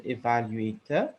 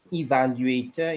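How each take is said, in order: First: EVALUATOR opening on a short "eh"; mistaken pronunciation. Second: EVALUATOR opening on a long "ee"; correct pronunciation. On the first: Grammarian quoting the error, evaluator with "eh" first. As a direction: say evaluator as eh-val-u-ay-ter. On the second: Grammarian correcting a word, demonstrated evaluator with "ee" first. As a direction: say evaluator as ee-val-u-ay-ter. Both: Shown as a demonstration. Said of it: "instead of evaluator".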